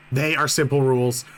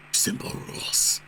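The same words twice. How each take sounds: First: Said in the usual way. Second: Soft unvoiced whisper. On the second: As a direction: breathe it out as a whisper. Reads rules line twice.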